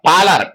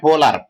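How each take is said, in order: First: Palar with a long open first A; correct pronunciation. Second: Polar with a rounded O; wrong pronunciation. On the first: Lecturer correcting a river's name for the class, correct pronunciation of Palar. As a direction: lean hard on the PAA in Palar. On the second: Lecturer warning the class off a misreading, wrong pronunciation Polar. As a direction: say Polar with an O in the first syllable. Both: Shown as a demonstration. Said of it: "not Polar".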